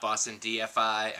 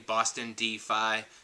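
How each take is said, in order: First: The ending is spelled out as letters F, I. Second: The ending is said as one syllable, 'fi'. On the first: The speaker calls it wrong. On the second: The speaker calls it right. "you have to pronounce the name correctly"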